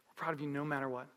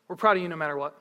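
First: Low, soft, quicker delivery; tender reassurance. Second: Said in the usual way. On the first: Retold or imitated. Parent to child about unconditional pride, soft tender reassurance. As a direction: reassure softly, voice dropped low.

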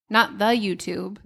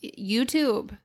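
First: "the YouTube" said with a small rise on "not"; correcting the article in "the YouTube"; mocking the wrong form. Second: Said in the usual way. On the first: Shown as a demonstration. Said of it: "Nobody calls it the YouTube".

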